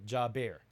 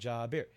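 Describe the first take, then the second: First: The second syllable sounds like 'bear', drawn out. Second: The second syllable sounds like 'beer', said quickly. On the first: The speaker calls it wrong. "I'm not a bear" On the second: The speaker calls it right. "Just like Ja Beer, right?"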